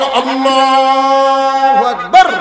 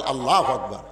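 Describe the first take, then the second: First: Very high, loud, long-held call; loud drawn-out takbir. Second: Said in the usual way. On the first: Acted. Shepherd calling takbir behind the muezzin, huge drawn-out shout. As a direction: cry it out slowly at full volume.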